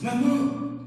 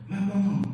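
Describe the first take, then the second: First: The word is said urgently and insistently. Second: The word is said softly and tenderly. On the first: It is a cry for help. "Quelquefois avec insistance" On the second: It expresses affection. "Quelquefois tendrement"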